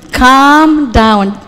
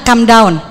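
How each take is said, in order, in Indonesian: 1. Vokal di calm itu panjang. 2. Vokal di calm itu pendek. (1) "Kalau ini A-nya panjang" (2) "Jadi jangan bilang calm down"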